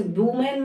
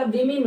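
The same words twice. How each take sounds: First: वुमेन as boo-men; U in first syllable. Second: विमेन as wi-min; I in both syllables. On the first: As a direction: open वुमेन with an oo. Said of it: "वुमेन नहीं होता". (वुमेन में उ की आवाज़) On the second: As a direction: use short I sounds in विमेन. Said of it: "विमेन होता". (विमेन को विमिन बोलें) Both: Shown as a demonstration.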